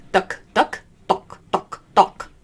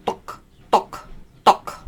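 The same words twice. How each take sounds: First: "duck" with the tongue tip, front; "duck" crisp at the front of the mouth. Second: "duk" from the back of the tongue; "duk" deep and throaty. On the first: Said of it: "Instead of duck". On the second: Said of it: "you're using the back of your tongue". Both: Shown as a demonstration.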